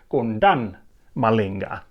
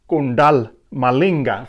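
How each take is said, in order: First: The first word ends with an N sound. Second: The first word ends with an L sound. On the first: The speaker calls it right. "but rather Kundan Malinga" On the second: The speaker calls it wrong. "but not Kundal Malinga for some reason"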